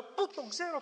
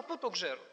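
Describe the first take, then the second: First: "Πού" jumps up high in a baffled rising question; puzzled question. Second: Musing to oneself. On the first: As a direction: ask yourself, truly stumped. (σαστισμένη ερώτηση με το «Πού» ψηλά) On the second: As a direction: let the question sink into thought. (χαμηλά, σαν σκέψη, με πτώση στο «ξέρω») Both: Retold or imitated. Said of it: "προσπαθούσα να".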